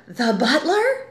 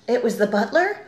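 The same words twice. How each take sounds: First: BUTLER slower, higher and rising; emphatic repetition. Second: Said in the usual way. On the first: Shown as a demonstration. Writer repeats for importance, "the butler" stretched and emphatic. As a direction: repeat "the butler" drawn out, lifting at the end. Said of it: "this repetition in lieu of your fancy fonts". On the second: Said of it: "you have this repetition".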